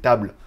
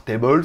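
First: Said in the usual way. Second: "table" pronounced "tay-bol", as in American English; mock American "table", in two syllables; American accent. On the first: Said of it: "c'est pour ceux qui savent pas". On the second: Shown as a demonstration. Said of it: "avec l'accent américain".

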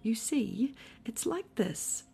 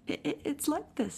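First: Higher, uneasy lead-in; hesitant explaining. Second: High, stammering, hurried little voice; quick. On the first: Pooh tries to explain the house to Eeyore, hesitant. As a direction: stall while finding the explanation. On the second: Piglet rescues Pooh's explanation, quick and nervous. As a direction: jump in quickly, tripping over the start. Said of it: "said Piglet quickly". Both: A narrator's reading.

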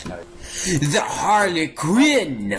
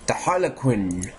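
First: High, very drawn-out "Harlequin"; dramatic exclamation. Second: Said in the usual way. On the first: Pretend. Gamer names the suspect, dramatic cry. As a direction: stretch "Harlequin" out high and theatrically. Dramatic naming, then repeated plainly.

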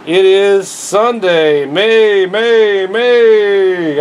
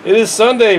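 First: Slow halting read, struggling to see; squinting slow read. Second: Said in the usual way. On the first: Real, not acted. Vlogger reading the date without glasses, slow and halting. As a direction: drag the words out, straining to read. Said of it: "I can't even read it". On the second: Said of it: "Let me get my eyes back on".

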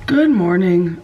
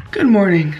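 First: Hoarse sick morning voice; croaky voice. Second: Croaky voice. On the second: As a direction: greet again, still hoarse. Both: Real, not acted. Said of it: "even though I sound like this".

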